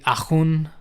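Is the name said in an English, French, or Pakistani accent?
French. The name is said with a French accent. This is how people in France say the name. "The French version would be"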